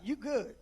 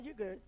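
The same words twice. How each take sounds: First: It sounds warm and reassuring. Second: It sounds dismissive and fed up. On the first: Reassuring someone that they are fine. "Let's say you want to encourage somebody" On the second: Telling someone to stop talking. "Let's say you tired of somebody talking to you"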